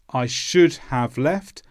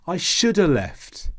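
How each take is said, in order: First: Every sound in the phrase is clearly pronounced. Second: Sounds are squashed together and reduced. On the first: Careful textbook speech. "you're generally taught phrases with all of the sounds" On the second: Casual everyday speech. "these sounds are reduced"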